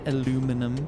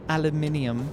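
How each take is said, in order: First: The word is said the American way. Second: The word is said the British way. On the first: The speaker calls it wrong. "aluminum the American way" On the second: The speaker calls it right. "I will teach you to say it correctly"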